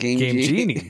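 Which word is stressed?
Genie. The stress falls on the second word. The speaker calls it wrong. "When you say it with the second word, it sounds like a last name"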